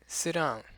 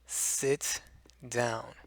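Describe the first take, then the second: First: The T at the end of sit is dropped. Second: The T at the end of sit is clearly pronounced. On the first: It is said on a lighter note. "Notice how the T isn't there anymore?" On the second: The words are being emphasized. "each letter is pronounced"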